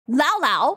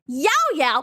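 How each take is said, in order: First: Each syllable begins with an L sound. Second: Each syllable begins with a Y sound. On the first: The speaker calls it wrong. "they'll go like, oh, Lao Lao" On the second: The speaker calls it right. "when I say Yao Yao ... I'm literally saying it right"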